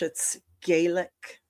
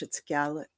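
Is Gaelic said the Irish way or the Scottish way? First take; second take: Irish; Scottish. First: Gaelic is said the Irish way. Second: Gaelic is said the Scottish way. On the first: "if it's Irish" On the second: "if it's Scottish"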